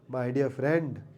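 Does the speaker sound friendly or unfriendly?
unfriendly. It is said in a cold, unfriendly tone. The words are not meant literally.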